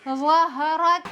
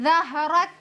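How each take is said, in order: First: The first consonant is thick and heavy. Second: The first consonant is thin and light. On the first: The speaker calls it right. "इसको मोटा करके पढ़ेंगे" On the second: The speaker calls it wrong. "वा को जाल बना देते हैं"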